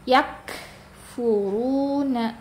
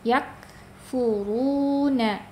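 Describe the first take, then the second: First: The k has a forced, exaggerated puff of air. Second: The k has a light, naturally flowing breath. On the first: The speaker calls it wrong. "Jangan yakfuruna ya, jangan berlebihan" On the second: The speaker calls it right. "itu akan keluar dengan sendirinya sifat hamas"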